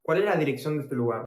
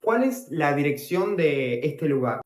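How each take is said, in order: First: Fast, run-together phrase in one breath; quick repeat. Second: Said in the usual way. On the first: Shown as a demonstration. Teacher repeating how to ask for an address, quickly. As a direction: rattle the Spanish question off fast.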